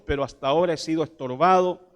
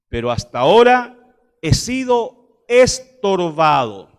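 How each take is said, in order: First: It is read at a faster pace. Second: It is read at a slower pace.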